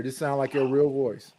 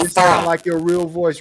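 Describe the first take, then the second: First: Said in the usual way. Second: Helium voice. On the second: Real, not acted.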